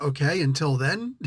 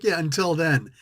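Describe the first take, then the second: First: "until then?" with a rising, asking tune; "then" lifted at the end like a query; questioning until then. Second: "until then." falling, final and settled; "then" dropped down as a firm statement. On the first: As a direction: ask "Okay, until then?" as an unsure question. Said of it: "And he's like". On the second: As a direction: close it flat: "Yeah, until then.". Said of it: "And T'Challa's like". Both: Retold or imitated.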